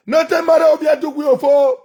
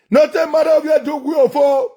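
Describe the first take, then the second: No difference in how they are said.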